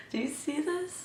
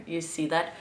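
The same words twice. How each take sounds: First: High laughing question. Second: Said in the usual way. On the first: Real, not acted. Showing off wavy liner, laughing.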